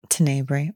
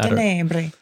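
First: It is said in a plain, unaccented way. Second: It is said with an Italian accent. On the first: "depending on how you want to pronounce it" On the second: "you got to say with some sort of Italian accent"

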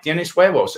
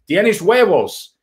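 First: It is said at normal, quieter volume. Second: It is said louder.

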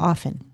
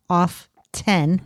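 First: The T in the middle is silent. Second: The T in the middle is pronounced. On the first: The speaker calls it right. "The dictionary prefers the T-less version" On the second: The speaker calls it wrong. "if you're saying it as off 10. ... You're technically wrong"

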